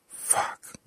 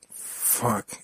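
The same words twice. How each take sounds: First: Voiceless, under the breath; muttered curse. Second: Voiced curse, slightly raised; louder curse. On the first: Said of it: "he muttered". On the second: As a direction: say it out loud, not shouted. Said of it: "he said louder than the first time". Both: A narrator's reading.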